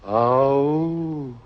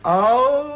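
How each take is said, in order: First: It is said quietly. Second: It is said loudly.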